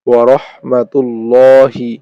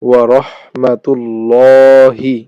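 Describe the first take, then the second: The two takes are said the same way.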